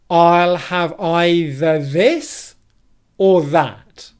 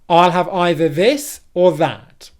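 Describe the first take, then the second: First: The sentence is said at a slower pace. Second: The sentence is said at a faster pace.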